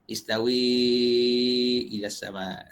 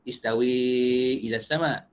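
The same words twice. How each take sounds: First: The long vowel is held for six counts. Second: The long vowel is held for four counts. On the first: "imalah beserta enam harakat" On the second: "imalah dengan empat, ada empat lah"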